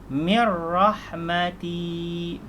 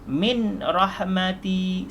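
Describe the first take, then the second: First: The n merges into the r without nasal. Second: The n is pronounced clearly before the r. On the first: The speaker calls it right. "yang betul mir rahmati, baru idgham bila gunnah, masuk tanpa de dengung" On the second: The speaker calls it wrong. "salah, itu jelas"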